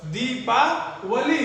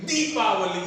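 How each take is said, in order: First: दीपावली drawn out slowly, दी held long; slow model pronunciation of दीपावली with long first vowel. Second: दीपावली with a quick, jerked दी; wrong-example दीपावली, first syllable said in a jerk; short दी in दीपावली. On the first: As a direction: say दीपावली slowly in parts, stretching दी. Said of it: "न कि दीपावली". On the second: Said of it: "झटके में जाएगा दी". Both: Shown as a demonstration.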